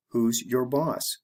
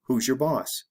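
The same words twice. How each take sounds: First: Slow, careful "Who's your boss?" with "your" said as a full separate word; deliberately slow teacher model. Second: "Who's your" run together as "whosure", quick and linked; natural fast connected speech. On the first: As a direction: spell it out slowly, word by word. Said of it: "I'll say it the slow way". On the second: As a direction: blend it fast, no gap before "your". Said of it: "the fast way". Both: Shown as a demonstration.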